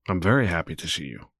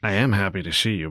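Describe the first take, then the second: First: Very leaned on, falling at the end; gushing I'm very happy; stress on very. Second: Said in the usual way. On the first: Shown as a demonstration. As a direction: press on the word very.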